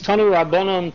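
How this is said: It is said with a Western-style pronunciation. The speaker calls it wrong. "my Western culture pronunciation"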